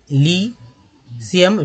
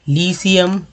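First: "लीसियम" very slowly as ली, pause, Siem; syllable by syllable. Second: Said in the usual way. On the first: Shown as a demonstration. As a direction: break "लीसियम" after a long lee. Teacher repeats word broken in two.

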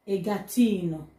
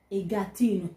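No difference in how they are said.

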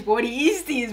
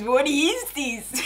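First: Said in the usual way. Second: Drawn out very slowly, each word stretched; slow disbelief. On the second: Real, not acted. Repeated disbelief.

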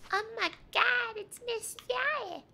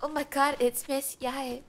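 First: Very high, drawn-out excited squeal; fangirl squeal. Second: Excited recognition, slightly raised pitch; light up at spotting a favorite character. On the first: Streamer gushing over Miss Yae in the game, high squeal. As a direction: squeal it like a starstruck fan, stretching the name. Same greeting repeated in a squeal. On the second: Streamer spotting Miss Yae in the game, excited. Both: Real, not acted.

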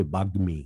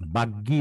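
First: বাগ্মী with a clear gm cluster; correct pronunciation. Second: বাগ্যী with a y sound in place of the m; wrong pronunciation. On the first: Teacher giving the class the right বাগ্মী, careful and clear. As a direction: say বাগ্মী with g then a distinct m. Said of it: "কিন্তু উচ্চারণটা হবে বাগ্মী". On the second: Teacher showing the mistaken বাগ্যী to the class, plain voice. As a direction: say বাগ্যী as the common mistake, gy not gm. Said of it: "আমরা বাগ্যী বলবো না". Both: Shown as a demonstration.

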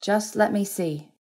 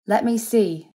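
First: Higher, slower insistence; pressing plea. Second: High, louder insistence; pressing. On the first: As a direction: draw it out, asking once more firmly. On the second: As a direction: press the request, raised and urgent. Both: A narrator's reading. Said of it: "she pressed".

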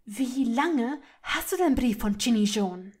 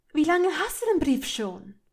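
First: Louder, controlled fury, word by word; trembling with anger. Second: Higher, louder, accusing question; angry demand. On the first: Hermine repeating her demand to Malfoy, trembling with anger. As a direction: press the question through mounting rage. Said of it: "Hermines Stimme bebte vor Wut". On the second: Hermine confronting Malfoy over the letter, angry demand. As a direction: confront him sharply. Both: A narrator's reading.

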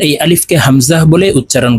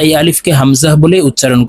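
The two takes are said the same way.

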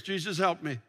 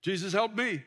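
First: Jesus, help me with low falling pitch; low pleading Jesus, help me; prayer intonation one. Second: Jesus, help me with the stress on me; prayer intonation two. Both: Shown as a demonstration. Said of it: "if you change the intonations".

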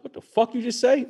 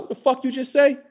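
First: Retold angry confrontation. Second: High, sharp mock confrontation; retold angry challenge. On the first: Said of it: "flipped out and just went into, like, attack mode". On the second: Retelling to friends how he confronted the stranger, high and aggressive. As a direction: snap it back like you're ready to fight. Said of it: "attack mode".

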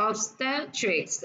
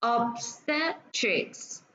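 First: Obstetrics slowly, ob-STET-rics; slow teacher's obstetrics, STET stressed; stress on second syllable. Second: Obstetrics very slow, ob-STET-rics; stress on second syllable. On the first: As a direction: say obstetrics a bit more joined, stressing STET. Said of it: "ba âm và sẽ nhấn vào âm thứ hai". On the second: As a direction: split obstetrics into three long syllables. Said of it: "Ở đây mình có ba âm và sẽ nhấn vào âm thứ hai". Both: Shown as a demonstration.

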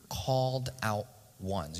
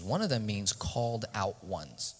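First: Slow dictation. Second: Said in the usual way. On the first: Shown as a demonstration. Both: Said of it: "You can write that".

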